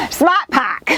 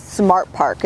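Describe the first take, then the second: First: Dropped-r Boston 'Smart pack'; Boston accent. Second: Said in the usual way. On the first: Pretend. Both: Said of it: "my Boston accent isn't that wicked".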